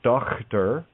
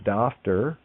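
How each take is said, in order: First: The middle consonant is a rough throat sound. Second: The middle consonant is an f sound. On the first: "isn't Dochter" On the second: "or Dafter"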